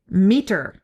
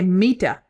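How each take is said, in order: First: The word ends with a strong R sound. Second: The word ends without an R sound. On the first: This is how Americans say it. "We say meter. And we're heavy on the R" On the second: This is how a Brit would say it. "we Americans, we don't say Mita"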